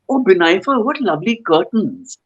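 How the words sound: The tone sounds sincerely admiring. The curtains are genuinely being complimented. "complimenting you"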